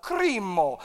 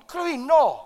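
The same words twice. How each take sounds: First: Said in the usual way. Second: Krino with a trilled R, louder; rolled R. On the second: Shown as a demonstration. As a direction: roll the R hard in krino. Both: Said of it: "You gotta roll the R".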